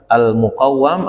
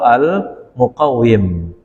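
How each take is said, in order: First: The doubled w is followed by an 'a' vowel. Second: The doubled w is followed by an 'i' vowel. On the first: "dibaca dengan fathah wawi" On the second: "boleh dibaca kasrah"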